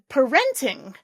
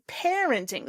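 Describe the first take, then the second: First: The stress is not on the first syllable. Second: The stress is on the first syllable. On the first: The speaker calls it wrong. "I think you said parenting" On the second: The speaker calls it right. "it should be parenting. Syllable stress is on the same one"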